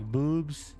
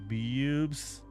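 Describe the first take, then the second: First: It is said as plain boobs, no glide. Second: It is said with a w-like glide after b. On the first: "doesn't sound like boobs" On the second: "It sounds like boobs"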